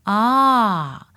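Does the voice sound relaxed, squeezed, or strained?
relaxed. The voice sounds relaxed, with the neck centered.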